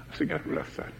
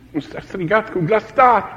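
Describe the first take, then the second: First: Breathy, hushed repeat; whispered. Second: Said in the usual way. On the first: Real, not acted. Preacher repeating that Jesus cried out, in a whisper. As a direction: drop to a whisper for effect. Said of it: "repeated phrase, whispered". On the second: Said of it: "first take of phrase".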